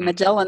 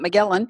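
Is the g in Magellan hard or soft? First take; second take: soft; hard. First: The g is soft, as in gel. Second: The g is hard, as in go. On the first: The speaker calls it right. "We always say Magellan" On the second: The speaker calls it wrong. "not Magellan"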